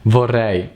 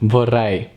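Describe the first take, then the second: No difference in how they are said.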